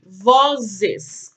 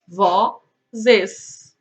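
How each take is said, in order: First: Said in the usual way. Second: "Vozes" in two beats, "Vo", long pause, "zes"; split into syllables. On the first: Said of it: "Quantas sílabas nós temos?". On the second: Shown as a demonstration. Teacher answering the syllable count, "Vozes" syllable by syllable. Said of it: "Duas sílabas".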